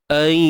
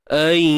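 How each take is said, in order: Both takes have the same delivery.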